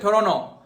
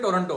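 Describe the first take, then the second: First: The t after the n is dropped. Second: The t after the n is clearly pronounced. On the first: This is how foreigners say it. The speaker calls it wrong. "वो बोलते हैं टोरोनो" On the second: This is how people here say it. The speaker calls it right. "ये टोरंटो को अपन बोलते हैं टोरंटो"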